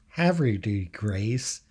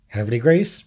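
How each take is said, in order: First: The name is said with full, clear vowels. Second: The name is said with vowels clipped away. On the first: This is how outsiders say it. The speaker calls it wrong. "and not Havre de Grace. God, I can't even say it that way" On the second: This is how locals say it. The speaker calls it right. "omits all vowels. That's why it's Havre de Grace"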